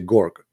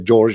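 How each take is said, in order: First: The name starts with a hard G sound. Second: The name starts with a soft J sound. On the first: "the letter J, they don't say J, they say uh, uh, Gorg" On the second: "You say George"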